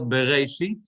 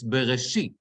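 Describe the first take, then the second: First: Bereshit with the stress on the wrong syllable. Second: Bereshit with the stress on the shin syllable; correct stress. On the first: Teacher mocks the common wrong reading. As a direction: show how Americans say Bereshit. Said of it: "It's not Bereshit". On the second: Teacher corrects the class with the right stress. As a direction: model the proper Bereshit. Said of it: "It's Bereshit". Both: Shown as a demonstration.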